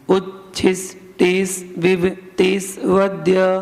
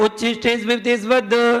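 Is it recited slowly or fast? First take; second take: slowly; fast. First: It is recited slowly and carefully. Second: It is recited quickly and fluently.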